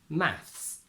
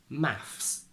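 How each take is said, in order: Both takes have the same delivery.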